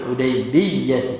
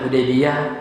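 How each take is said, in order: First: The y sound is held long and doubled. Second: The y sound is short and single. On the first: "bisa juga bitasydidil ya, dengan kita tasydidkan huruf ya-nya" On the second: "ya-nya bisa dibaca tanpa tasydid, bitakhfif"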